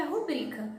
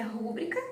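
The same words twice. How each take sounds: First: RuBRIca com força na segunda sílaba; tônica no BRI. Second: RÚBRICA com força na primeira sílaba; tônica no RÚ. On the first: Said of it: "e outras que é rubrica". (rubrica dito como paroxítona) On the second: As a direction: acentue o RÚ de rúbrica. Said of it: "Algumas pessoas falam que é". (rúbrica dito como proparoxítona) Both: Shown as a demonstration.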